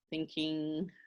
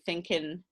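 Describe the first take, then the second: First: The ending is a full 'ing' sound. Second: The ending is a plain 'in' sound. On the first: "We don't say doing, thinking" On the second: "we usually say in, okay? So we say thinking"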